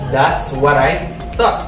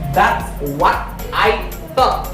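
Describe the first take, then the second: First: The words run together with linking. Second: The words are said separately without linking. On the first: The speaker calls it right. "because we got T H sound" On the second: The speaker calls it wrong. "I don't say"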